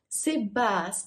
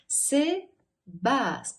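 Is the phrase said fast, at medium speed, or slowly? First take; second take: fast; slow. First: It is said quickly with syllables run together. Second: It is said slowly, syllable by syllable. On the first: "Et теперь быстро" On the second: "медленно по слогам"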